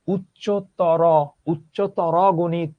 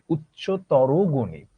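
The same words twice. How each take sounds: First: উচ্চতর dragged out slowly, ending on a hard closed র; mock the stiff wrong way to say উচ্চতর গণিত; wrong pronunciation. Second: উচ্চতর said slowly with an o ending, উচ্চতরো; correct pronunciation. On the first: Teacher showing students the way nobody says it. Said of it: "এইভাবে তো আমরা কেউ বলি না". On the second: Teacher showing students how we really say it. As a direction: model উচ্চতর গণিত the natural way, slowly. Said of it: "আমরা কি বলি?". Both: Shown as a demonstration.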